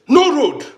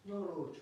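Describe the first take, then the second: First: Louder repeat. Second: Said in the usual way. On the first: Real, not acted. Says no road twice.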